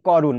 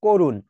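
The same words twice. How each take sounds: First: করুণ with an open "aw" first vowel; open অ sound. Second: করুণ with a rounded "oh" first vowel; closed ও sound. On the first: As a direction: say করুণ as "KAW-run". (করুণ, ক-তে খোলা অ) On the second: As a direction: say করুণ as "KOH-run". (করুণ, ক-তে ও-এর মতো উচ্চারণ) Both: Shown as a demonstration. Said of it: "এটাও ও হয়ে গেছে".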